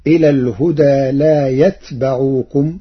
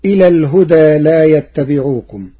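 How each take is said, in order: First: يتبعوكم as yatbaʿūkum, silent ta; يتبعوكم with fatha on ba; Warsh reading. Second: يتبعوكم as yattabiʿūkum, doubled ta; يتبعوكم with shadda on ta and kasra on ba; Hafs reading. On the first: Teacher reciting Warsh's variant to the class. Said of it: "بسكون التاء وفتح الباء". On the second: Teacher quoting the standard reading, recited. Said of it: "قرأ ورش كلمة يتبعوكم". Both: Shown as a demonstration.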